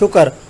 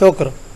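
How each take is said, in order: First: A vowel is inserted between the final consonants. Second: The final consonants are said together without vowel. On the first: The speaker calls it wrong. "काफ के ऊपर भी ज़बर पड़ी जाती है, हालांकि ये दुरुस्त नहीं है" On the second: The speaker calls it right. "लफ्ज़ क्या है"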